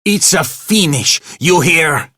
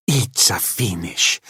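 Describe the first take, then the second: First: High, loud enraged yell; angry shouting. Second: Said in the usual way. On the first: A narrator's reading. Manager firing the janitor, shouting in rage. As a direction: roar the firing at him.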